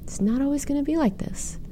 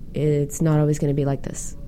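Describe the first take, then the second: First: It is said in a warm, caring tone. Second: It is said in a cold, flat tone. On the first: It feels reassuring and comforting. The speaker calls it right. "Gives a whole different feeling, right?" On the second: It offers little comfort. The speaker calls it wrong. "Not so warm and fuzzy, is it?"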